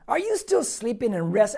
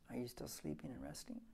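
First: It is said in an angry, scolding tone. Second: It is said in a gentle, kind tone.

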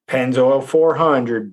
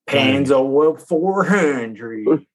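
First: It is said in a plain accent. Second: It is said in a Southern accent.

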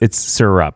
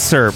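First: The word is said with two syllables. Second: The word is said with one syllable. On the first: The speaker calls it right. "no, it's syrup. It's two syllables" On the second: The speaker calls it wrong. "My family makes fun of the way I say the word syrup"

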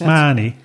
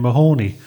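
First: It is said the local Cork Irish way. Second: It is said the American way. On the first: "how do we pronounce Mahoney? Mahoney here in Cork" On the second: "it hit the US, it became Mahoney"

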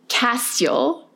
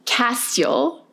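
First: The second half of the name is oddly pronounced. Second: The same.

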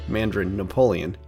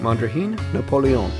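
First: The name is pronounced the English way. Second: The name is pronounced the French way.

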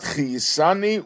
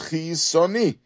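First: The third syllable has an 'a' vowel. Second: The third syllable has an 'o' vowel. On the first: The word is attached to the words that follow. The speaker calls it wrong. "and not chiyisani with the vowel patach" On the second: The word stands alone, giving thanks just for life. The speaker calls it right. "the way we should pronounce chiyisoni is with a kamatz"

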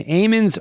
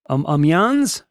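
First: The name is said with an English accent. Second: The name is said with a French accent.

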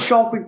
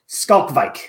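First: The name begins with an 'sh' sound. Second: The name begins with an 'sk' sound. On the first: The speaker calls it wrong. "I always thought it was Schalkwijk too" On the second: The speaker calls it right. "but it is Skalkwijk"

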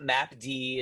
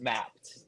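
First: It is said as map followed by letter D. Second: It is said as the single word mapped. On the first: The speaker calls it wrong. "It's not map D" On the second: The speaker calls it right. "it's just mapped"

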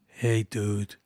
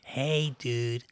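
First: It sounds like a New York accent. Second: It sounds like a Californian surfer accent.

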